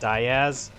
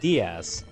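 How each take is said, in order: First: The name is said with anglicized pronunciation. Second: The name is said with Spanish pronunciation. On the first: This form was used by coworkers and became the family's official one. "they would just pronounce his name Diaz" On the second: This is the usual form in the original language. "it's normally pronounced Diaz uh, in Spanish"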